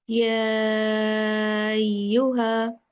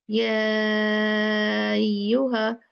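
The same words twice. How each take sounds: No difference in how they are said.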